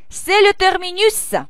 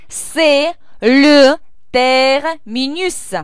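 First: It is said noticeably faster. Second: It is said at a normal, careful pace.

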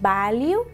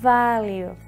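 First: It starts with a b sound, lips closed. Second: It starts with a buzzing v sound. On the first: The speaker calls it wrong. "no decís value" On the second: The speaker calls it right. "hacéis value. ¿De acuerdo? Con esta vibración"

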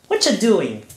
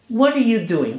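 First: The first words blend into one reduced word. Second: Each word is said fully and separately. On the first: "another expression. Whatcha doing?" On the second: "So what are you doing?"

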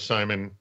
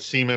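First: The first vowel sounds like 'sigh'. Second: The first vowel sounds like 'see'. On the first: The speaker calls it right. "encourage us all to say Simon" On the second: The speaker calls it wrong. "that didn't sound right"

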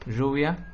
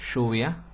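First: The ll sounds like the s in pleasure. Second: The ll sounds like English sh. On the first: This is the older, traditional regional pronunciation. "Este sonido es el sonido de el inglés en la palabra pleasure" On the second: This is the newer pronunciation of younger speakers. "Se convierte en el sonido del italiano, por ejemplo, asciugamano, o del inglés, passion, sh"

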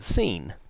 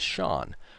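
First: The name is said with an s sound, rhyming with bean. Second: The name is said with an sh sound, rhyming with lawn. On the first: The speaker calls it wrong. "B-E-A-N is pronounced bean, it's very similar to S-E-A-N" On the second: The speaker calls it right. "So you would say, oh, well, the dog's name is Sean"

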